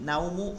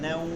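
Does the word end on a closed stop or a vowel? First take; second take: vowel; closed stop. First: It ends on a short vowel after the m. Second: It stops on the m, the vowel lengthened. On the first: The speaker calls it wrong. "এটা না নাউমু খৌফি বাইতি" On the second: The speaker calls it right. "ওয়াকফ করলে এক আলিফ হয়"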